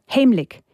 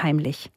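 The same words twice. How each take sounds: First: Heimlich said as English "HAYM-lik", hard k at the end; English pronunciation. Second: Heimlich said the German way, "HIME-lich" with soft ch; German pronunciation. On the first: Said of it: "in Lautschrift geschrieben wie das englische Wort". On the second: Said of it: "das englische Wort für heimlich". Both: Shown as a demonstration.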